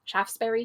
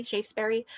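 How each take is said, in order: First: "Shaftesbury" with short a, as in "shaft"; trying a pronunciation. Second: "Shaftesbury" with long a, as in "shape"; trying another pronunciation. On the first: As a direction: try "Shaftesbury" as SHAFF-sbury, questioning. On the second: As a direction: try "Shaftesbury" as SHAYF-sbury, unsure. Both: Shown as a demonstration. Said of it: "Shaf-, Shaftesbury Avenue".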